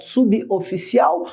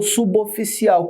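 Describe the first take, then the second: First: "Suboficial" as subi, oficial, prefix cut off; prefixo separado. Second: "suboficial" linked as su-bo-ficial; prefixo ligado. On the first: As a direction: break "Suboficial" after the b, then start on the o. ("Suboficial" com pausa depois de sub) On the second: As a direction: join the b of "suboficial" to the o. ("suboficial" ligado: su-bo-ficial) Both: Shown as a demonstration. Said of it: "Qual é o correto?".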